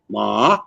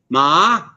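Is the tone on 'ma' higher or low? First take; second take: low; higher. First: The word is said on a low tone. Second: The word is said on a non-low tone. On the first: It means dog. "low tone is dog" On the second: It means horse.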